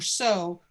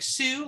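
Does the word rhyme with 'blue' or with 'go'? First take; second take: go; blue. First: The vowel is a long oh sound, like go. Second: The vowel is an oo sound, like blue. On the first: "like S O O O O, like a long" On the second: "like S U E, like the name"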